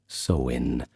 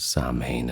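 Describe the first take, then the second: First: The word is given its Irish pronunciation. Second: The word is given its English pronunciation. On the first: "in Irish is pronounced" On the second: "we generally know it as Samhain, at least that's how we pronounce it in English vernacular"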